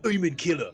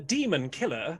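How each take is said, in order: First: It is said in a rough, guttural way. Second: It is said in a plain, smooth way. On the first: This is an older, cruder form of the language. "lower brow kind of a pronunciation. It feels very guttural" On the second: This is the modern form of the language. "modern Orcish would be like"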